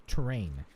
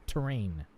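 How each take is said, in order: Both takes have the same delivery.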